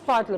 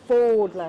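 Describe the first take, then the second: First: The first vowel sounds like the vowel in 'fad'. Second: The first vowel sounds like the vowel in 'fold'. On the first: The speaker calls it wrong. "not Fadla" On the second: The speaker calls it right. "but Fodla"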